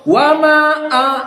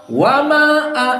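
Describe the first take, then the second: First: The vowel in 'ma' is held only briefly. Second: The vowel in 'ma' is held only briefly.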